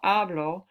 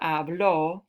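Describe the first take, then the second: First: The stress is on the first syllable. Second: The stress is on the last syllable. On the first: The speaker speaks, in the present. "take the accent mark off" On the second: Someone else spoke, in the past. "This form here with the accent"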